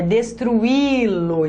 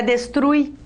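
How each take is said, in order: First: Destruí-lo very slowly, long stressed I apart from U; destruí-lo with a drawn-out Í syllable of its own; split vowels, hiatus. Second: Destruir as des-TRUI, UI glued in one syllable; vowels run together. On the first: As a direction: stretch destruí-lo as des-tru-Í-lo. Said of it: "Não é destruir". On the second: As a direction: say destruir wrongly with a diphthong and no hiatus. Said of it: "É destruí-lo". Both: Shown as a demonstration.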